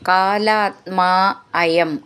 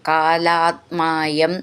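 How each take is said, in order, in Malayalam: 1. വാക്കുകൾ വേറെ വേറെയായിട്ടാണ് ചൊല്ലുന്നത്, ചേർക്കാതെ. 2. വാക്കുകൾ ചേർന്ന് ഒഴുക്കോടെ ഒരു യൂണിറ്റായിട്ടാണ് ചൊല്ലുന്നത്.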